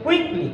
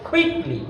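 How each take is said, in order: First: The first k sound has no puff of air. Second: The first k sound has a strong puff of air. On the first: The speaker calls it wrong. "ক দিয়ে উচ্চারণটা করে ফেলি" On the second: The speaker calls it right. "আসল উচ্চারণটা ক দিয়ে না"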